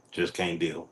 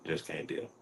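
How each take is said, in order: First: Said in the usual way. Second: Whispered dismissal. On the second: Acted. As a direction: breathe it out, voiceless. Repeats the line as a whisper.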